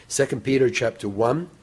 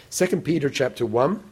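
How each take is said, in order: Both takes have the same delivery.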